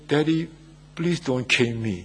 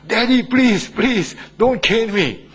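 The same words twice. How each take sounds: First: Mildly acted child's plea; hesitant, understated plea to a parent; stunned child. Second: High, loud imitation of a desperate child; acted wail of a child begging a parent; crying child pleading. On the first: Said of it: "looked so stunned and he said". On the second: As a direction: beg hard, drawing out the plea. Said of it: "the child cries and said".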